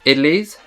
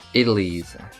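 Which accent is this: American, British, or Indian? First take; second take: British; American. First: It is said in a British accent. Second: It is said in an American accent. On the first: "British people pronounce this idlis" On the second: "And then the American accent it will be idlis"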